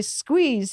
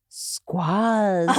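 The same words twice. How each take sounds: First: Said in the usual way. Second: Imitating the teacher saying "Squaz." with a short flat a; Indian accent. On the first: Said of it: "when he would say". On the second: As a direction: say "Squaz." instead of squeeze, laughing. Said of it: "he would say".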